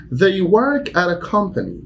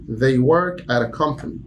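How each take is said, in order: First: "work" hit high and firm; stress on work. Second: Said in the usual way. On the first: Shown as a demonstration. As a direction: punch the word "work". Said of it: "teacher demo".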